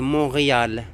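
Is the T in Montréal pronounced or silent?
silent. It is said the French way, T silent. "Mais en français, c'est Montréal. On ne prononce pas le T"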